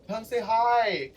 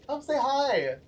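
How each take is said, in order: First: Higher, slow sing-song invitation; a lilting come say hi; friendly invitation. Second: Much higher, playful sing-song; sing-song repeat. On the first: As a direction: coax them over sweetly. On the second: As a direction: call it out even brighter the second time. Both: Acted. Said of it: "Guys, if you see me".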